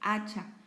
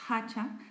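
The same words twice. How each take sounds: First: The word begins directly with a vowel sound. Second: The word begins with an audible h sound. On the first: The speaker calls it right. "la H es muda en español" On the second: The speaker calls it wrong. "No decimos hacha"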